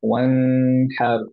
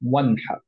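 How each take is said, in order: First: The n is held with a nasal hum. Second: The n is short and clear, unheld. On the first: The speaker calls it wrong. "এরকম পড়বো না, বিকজ গুণ না নাই" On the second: The speaker calls it right. "নুনটা ক্লিয়ার পড়বো, এন্ড হচ্ছে গুণটা ছাড়া"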